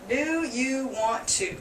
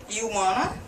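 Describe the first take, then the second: First: Every word is said fully at normal speed. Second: It is said faster, with 'want to' reduced. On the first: "That's the normal phrase" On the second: "Then faster"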